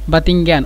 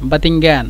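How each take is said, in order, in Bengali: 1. দ্বিতীয় ব্যঞ্জনটি t ধ্বনি। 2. দ্বিতীয় ব্যঞ্জনটি t ধ্বনি।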